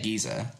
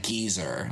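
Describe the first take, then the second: First: "Giza" said as British geezer, no final R; British-style pronunciation. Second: "geezer" with a hard American R at the end; clunky American pronunciation. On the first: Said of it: "but I can't be like". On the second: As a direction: sound the final R in "geezer". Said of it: "I feel so clunky when I say it". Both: Shown as a demonstration.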